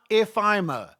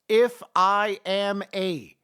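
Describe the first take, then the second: First: The words are slurred together into fewer syllables. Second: Each of the four words is said separately. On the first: The speaker calls it wrong. "why the fuck can't you enunciate? It's not if I'm a" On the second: The speaker calls it right. "it's if I am a. It's not two words, it's four words"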